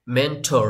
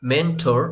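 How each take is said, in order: Both takes have the same delivery.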